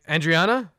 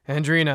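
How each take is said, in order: First: The name is said with four syllables. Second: The name is said with three syllables. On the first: This is how others wrongly say the name. The speaker calls it wrong. "they're like Andriana" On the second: This is how the name is really said. The speaker calls it right. "she has to say Andrina"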